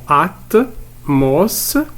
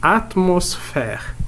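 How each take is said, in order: First: "atmosphère" in separate beats, at, mos, phère; stretched, syllable-by-syllable "atmosphère"; split into syllables. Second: Said in the usual way. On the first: Shown as a demonstration. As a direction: sound out "atmosphère" slowly with gaps. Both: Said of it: "On va découper ces mots en syllabes".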